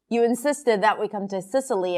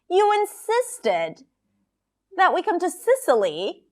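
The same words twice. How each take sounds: First: It is said flatly, with little pitch movement. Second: Stressed words are longer and higher in pitch. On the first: It does not show the feeling behind the words. The speaker calls it wrong. "Imagine that she just said it like this" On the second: It shows the speaker is annoyed. The speaker calls it right. "the words that are stressed are longer and higher in pitch"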